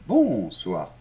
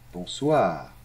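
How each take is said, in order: First: Bonsoir stressed on the first syllable, bon; wrong stress. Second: Bonsoir. with the stress on soir at the end; right stress. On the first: Teacher shows the wrong stress on bonsoir. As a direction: put the weight on bon in bonsoir. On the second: Teacher models the right stress on Bonsoir. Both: Shown as a demonstration. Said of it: "L'accent tonique est toujours à la fin".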